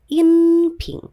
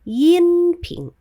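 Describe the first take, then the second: First: The first word starts directly with a vowel. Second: The first word starts with a y sound. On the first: The speaker calls it right. "yang benar adalah in ping" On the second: The speaker calls it wrong. "kita tidak membaca yin ping"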